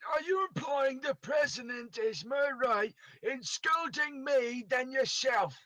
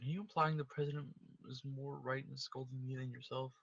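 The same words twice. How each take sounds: First: The line is read in a Scottish accent. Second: The line is read in a plain accent. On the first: The speaker calls it right. "Scotland! There it is" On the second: The speaker calls it wrong. "I forget how to do it"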